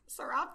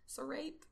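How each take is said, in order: First: Serape said "suh-RAHP", questioning; second-guess pronunciation. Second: Serape said "suh-RAPE"; unsure pronunciation. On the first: Reader trying the word differently, serape as "suh-RAHP". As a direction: say serape with an "ah", higher and louder. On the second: Reader guessing at the word, serape as "suh-RAPE". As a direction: say serape to rhyme with "tape". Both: Shown as a demonstration. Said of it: "I don't know".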